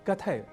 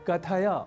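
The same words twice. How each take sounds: First: The final short a is dropped. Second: The final short a is fully pronounced. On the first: The speaker calls it wrong. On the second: The speaker calls it right.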